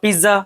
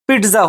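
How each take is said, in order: First: The middle consonant is a plain z sound. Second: The middle consonant is a ts sound. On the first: The speaker calls it wrong. "Actually वो पिज़्ज़ा नहीं होता है" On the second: The speaker calls it right. "Actually वो आपका पिट्ज़ा होता है"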